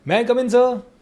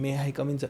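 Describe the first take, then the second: First: It sounds polite and confident. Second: It sounds hesitant and low.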